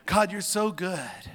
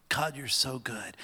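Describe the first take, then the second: First: Raised, slow exclamation of worship; fervent praise. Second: Said in the usual way. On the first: Real, not acted. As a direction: lift the voice high in praise. Spontaneous praise to God, repeated.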